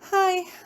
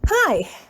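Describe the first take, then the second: First: It is said meekly and quietly. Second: It is said with enthusiasm.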